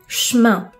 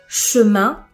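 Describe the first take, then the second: First: The e in the first syllable is dropped. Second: The e in the first syllable is pronounced.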